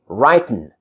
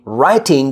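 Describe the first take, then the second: First: The word ends with a plain 'n' sound. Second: The word ends with a full 'ing' sound. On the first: "No G" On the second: "instead of saying writing"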